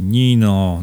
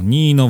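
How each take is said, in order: First: Calling "Nino" with rising urgency; sudden outburst. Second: "Nino" repeated higher and louder, bursting out; pleading cry of "Nino", higher and louder; sudden outburst. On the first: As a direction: call Nino as the feeling breaks loose. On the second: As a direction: let the second "Nino" break out of her. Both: A narrator's reading. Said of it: "wybuchnęła nagle".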